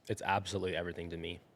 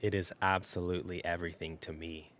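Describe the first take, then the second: First: It is said plainly, with ordinary energy. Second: It is said boldly, with much more energy.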